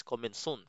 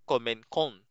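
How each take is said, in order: First: Commençons with a soft s in the middle; commençons said "commen-sons", soft c; the right way, with a soft s sound; right pronunciation. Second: Commencons with a hard k in the middle; the wrong way, with a hard c; wrong pronunciation. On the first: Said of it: "That is commençons". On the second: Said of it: "hindi mo siya bibigkasin na". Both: Shown as a demonstration.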